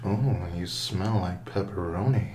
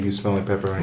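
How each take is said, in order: First: It is said in a slow, creepy way. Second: It is said in a plain, ordinary way.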